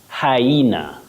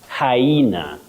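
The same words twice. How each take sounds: No difference in how they are said.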